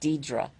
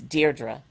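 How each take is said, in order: First: The first syllable has no R sound. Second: The first syllable has an R sound. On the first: The speaker calls it wrong. "most people say it Deidre" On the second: The speaker calls it right. "but it's Deirdre. ... There's an extra R in my name that's not in Deidre"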